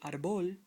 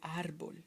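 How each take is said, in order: First: The stress is on the last syllable. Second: The stress is on the first syllable. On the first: The speaker calls it wrong. "So you don't say árbol" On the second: The speaker calls it right. "you say árbol"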